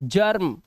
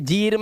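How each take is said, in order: First: The vowel sounds like 'er'. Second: The vowel sounds like 'ee'. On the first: The speaker calls it right. "अब ये आ हो गया है" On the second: The speaker calls it wrong. "थोड़ी पढ़ोगे"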